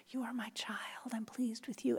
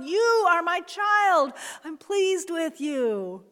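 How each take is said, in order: First: Soft unvoiced whisper of "You are my child"; a gentle hushed blessing. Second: Loud slow shout, pitched higher; a booming slow blessing, higher and louder. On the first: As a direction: breathe it like God whispering close. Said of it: "God is whispering". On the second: Acted. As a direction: proclaim "You are my child" at full voice. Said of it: "sometimes he's shouting".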